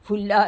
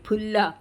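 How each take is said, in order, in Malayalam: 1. ഫ ശബ്ദത്തോടെയാണ് തുടങ്ങുന്നത്. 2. ശ്വാസം കലർന്ന പ ശബ്ദത്തോടെയാണ് തുടങ്ങുന്നത്. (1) "ഫുല്ല അല്ല. ദയവ് ചെയ്ത് ആ ഫ എന്ന് ആരും ഉപയോഗിക്കരുത്, അത് തെറ്റാണ്" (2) "ഫുല്ല തന്നെ പറയണം കേട്ടോ"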